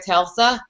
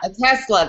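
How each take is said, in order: First: The L sound comes before the S sound. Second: The L sound comes after the S sound. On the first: The speaker calls it wrong. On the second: The speaker calls it right.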